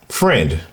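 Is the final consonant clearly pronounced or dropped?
clear. The final consonant is clearly pronounced.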